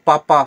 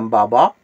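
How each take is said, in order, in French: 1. Le mot commence par un son P. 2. Le mot commence par un son B. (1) "c'est comme papa" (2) "ça devient baba"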